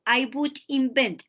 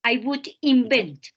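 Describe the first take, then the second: First: "invent" repeated, crisp im-BENT; repeated clear model. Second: "invent" said as im-BENT, stress on the second syllable; clear model of invent. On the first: Teacher repeats the verb for Santiago, firmly clear. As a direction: say "invent" again, firm and exact. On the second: Teacher corrects Santiago's verb, carefully clear. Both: Shown as a demonstration. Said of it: "No es inventory. El verbo es invent".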